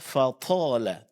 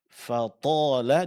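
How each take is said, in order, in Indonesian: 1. Huruf t diucapkan dengan hembusan napas. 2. Huruf t diucapkan tanpa hembusan napas.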